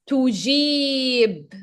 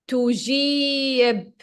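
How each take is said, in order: No difference in how they are said.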